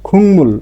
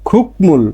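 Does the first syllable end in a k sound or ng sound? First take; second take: ng sound; k sound. First: The first syllable ends in an ng sound. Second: The first syllable ends in a k sound. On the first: The speaker calls it right. "এর উচ্চারণটা হবে কি খুংমুল" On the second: The speaker calls it wrong. "স্বাভাবিকভাবে এর উচ্চারণটা হতো কি খুকমুল"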